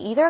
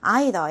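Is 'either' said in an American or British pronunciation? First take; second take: American; British. First: It is said in a non-British, American pronunciation. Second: It is said in a British pronunciation.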